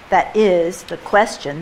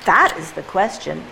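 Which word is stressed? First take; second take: is; that. First: The stress falls on "is". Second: The stress falls on "that".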